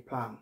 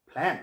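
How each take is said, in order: First: প্ল্যান as "plaan", open "aa"; softer, lower প্ল্যান with an open vowel; wrong pronunciation. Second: প্ল্যান with the vowel of "cat"; right pronunciation. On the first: Teacher asking learners which one, wrong "plaan". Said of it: "এই যে প্ল্যান বলি". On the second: Teacher asking learners which one, English "ae" vowel. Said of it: "প্ল্যান বলতে হবে". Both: Shown as a demonstration.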